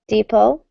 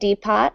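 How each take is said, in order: First: The T in the middle is silent. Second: The T in the middle is pronounced. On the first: The speaker calls it right. "just pretend there's no T" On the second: The speaker calls it wrong. "not depot"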